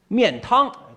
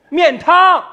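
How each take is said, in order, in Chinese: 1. 这个词是正常音量说的。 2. 这个词是大声喊出来的，音调很高。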